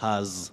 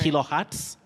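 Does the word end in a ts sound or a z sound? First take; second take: z; ts. First: The word ends with a z sound. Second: The word ends with a ts sound. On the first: The speaker calls it wrong. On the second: The speaker calls it right. "takes the sounding ts"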